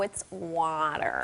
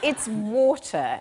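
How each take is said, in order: First: Water is said in an American accent. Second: Water is said in a British accent.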